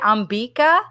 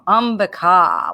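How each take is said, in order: First: The middle syllable is stressed. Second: The final vowel is long. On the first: This is how English speakers say it. "English speakers tend to say Ambika, but that's because they stress that second or middle vowel" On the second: This is the original Sanskrit form. "short A, short I, long A. So Ambika would be the proper"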